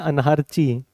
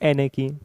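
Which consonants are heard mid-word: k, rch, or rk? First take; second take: rch; k. First: It is said with an r followed by ch. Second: It is said with no r, only k. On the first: The speaker calls it wrong. "बहुत से कहते हैं अनारची।" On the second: The speaker calls it right. "ये है एनेकी।"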